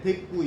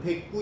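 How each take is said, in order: First: The second consonant is plain. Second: The second consonant is tense. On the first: This is how the word is written. "쓸 때는 대꾸라고 쓰고" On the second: This is how the word is pronounced. "발음은 대꾸 이렇게 되는 거죠"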